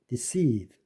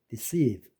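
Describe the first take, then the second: No difference in how they are said.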